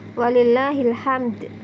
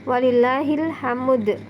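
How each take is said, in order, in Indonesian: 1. Tidak terdengar vokal di antara m dan d. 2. Terdengar vokal di antara m dan d. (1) "mematikan dua huruf terakhir tersebut" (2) "harokat dalnya itu boleh dipindah ke huruf mim"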